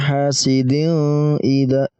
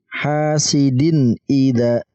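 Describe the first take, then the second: First: The n sound is blurred into the following vowel. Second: The n sound is pronounced clearly before the vowel. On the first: The speaker calls it wrong. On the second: The speaker calls it right. "Tanwin, ya, kita baca jelas. Hamzahnya pun kita baca jelas"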